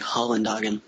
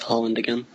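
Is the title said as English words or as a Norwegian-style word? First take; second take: Norwegian-style; English words. First: It is said as one Norwegian-sounding word. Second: It is said as the English words 'Holland again'. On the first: The speaker calls it wrong. "I used to say it wrong ... I just thought it was like Norwegian" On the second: The speaker calls it right. "now I say it as Holland Again"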